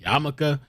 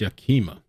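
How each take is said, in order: First: The middle sounds are swapped, saying Yamaka. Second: The sounds run in order, saying Yakima. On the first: The speaker calls it wrong. "I keep wanting to pronounce it Yamaka" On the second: The speaker calls it right. "I believe it's Yakima"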